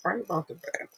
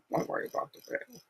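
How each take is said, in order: First: Said in the usual way. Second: Fast, whispered correction; quick whisper. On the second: Shown as a demonstration.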